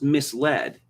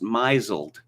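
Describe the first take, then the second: First: The word is said with its standard pronunciation. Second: The word is said following its spelling literally. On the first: The speaker calls it right. "it's pronounced misled" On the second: The speaker calls it wrong. "according to the rules of English pronunciation, it should be pronounced misled"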